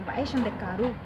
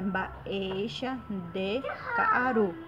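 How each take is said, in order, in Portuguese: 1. A frase é dita rapidamente, toda embolada. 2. A frase é dita devagar, com pausas. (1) "se você falar Baesha de Caaru rapidamente" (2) "o certo é Baesha de Caaru"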